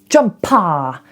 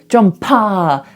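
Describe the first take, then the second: First: The ending is a full, clear ah vowel. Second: The same.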